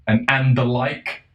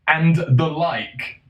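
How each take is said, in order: First: Said in the usual way. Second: "And the like" drawn out slowly, pitched higher; mocking emphasis. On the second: Shown as a demonstration. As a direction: stretch each word of "And the like" in disdain. Repeats hated phrase for mockery.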